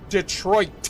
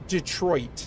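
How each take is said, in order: First: The T sound is softened, not fully pronounced. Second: The T sound is fully and clearly pronounced. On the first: "not like just Detroit" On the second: "like that really enunciated T sound"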